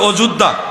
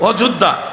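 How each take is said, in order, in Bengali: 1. নামটি বাঙালি উচ্চারণে বলা হয়েছে। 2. নামটি বাঙালি উচ্চারণে বলা হয়েছে।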